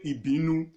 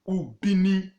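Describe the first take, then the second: First: The name starts with an i sound. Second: The name starts with a u sound. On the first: This is an outsiders' adapted form meaning a place of quarrel. The speaker calls it wrong. "they corrupted it to their own tune" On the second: This is the native form of the name. The speaker calls it right. "that is the normal pronunciation"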